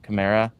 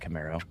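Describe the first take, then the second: First: The name ends with an 'ah' sound. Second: The name ends with an 'oh' sound. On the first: The speaker calls it right. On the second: The speaker calls it wrong.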